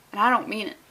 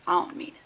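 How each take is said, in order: First: Said in the usual way. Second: Soft echoed repeat. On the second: Acted.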